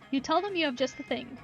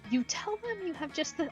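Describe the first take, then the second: First: It is said in the plain narrator voice. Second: It is said in the cultist character's voice.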